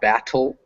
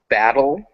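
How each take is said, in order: First: The middle consonant sounds like a crisp T. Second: The middle consonant sounds like a soft D. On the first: The speaker calls it wrong. "not battle" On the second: The speaker calls it right. "they're not T's, they're more like a D"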